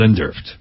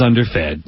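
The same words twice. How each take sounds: First: The word is pronounced in a garbled, odd way. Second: The word is pronounced in the usual standard way. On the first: The speaker calls it wrong. "not underfed" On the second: The speaker calls it right. "I knew the word was underfed"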